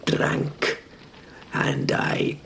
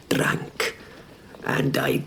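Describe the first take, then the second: No difference in how they are said.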